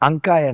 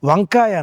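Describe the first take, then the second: First: The word begins with a vowel sound. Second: The word begins with a v sound. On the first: This is how the Medak region says it. "అంకాయ అంటారు" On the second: This is the usual form the region does not use. "వంకాయ అనరు"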